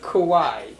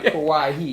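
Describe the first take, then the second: First: The name ends without a final 'hee' sound. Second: The name ends with a final 'hee' sound. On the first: The speaker calls it right. "It ain't no he at the end. Just Kawhi" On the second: The speaker calls it wrong. "not Kawhi"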